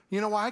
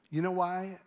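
First: Loud, high fired-up question; a rallying shout of a question; excited punch. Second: Said in the usual way. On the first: Real, not acted. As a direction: throw it out like a proud sports fan. Fired-up fan boasting.

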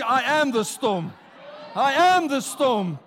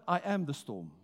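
First: I am the storm, louder and slower; rising shout of I am the storm; louder declaration. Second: Said in the usual way. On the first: Shown as a demonstration. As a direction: proclaim it louder each time, slow and strong. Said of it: "Tell somebody, louder and louder". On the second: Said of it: "say louder and louder".

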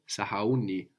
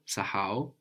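First: Sahauni stressed on u, the second last syllable; accent on u. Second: Sahau stressed on ha, the second last syllable; accent on ha. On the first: Teacher showing the accent moving to u. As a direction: lean on u in sahauni. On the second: Teacher showing the accent falling on ha. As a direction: lean on ha in Sahau. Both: Shown as a demonstration. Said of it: "it moves the accent".

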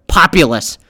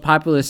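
First: "populous" louder and set apart; emphatic correction. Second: Said in the usual way. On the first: Real, not acted. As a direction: punch "populous" so it is not misheard. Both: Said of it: "I didn't say popular, populous".

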